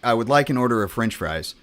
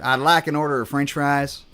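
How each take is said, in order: First: It is said in a plain, neutral accent. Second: It is said in a Southern drawl accent. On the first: "that's me saying like" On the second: "in the South"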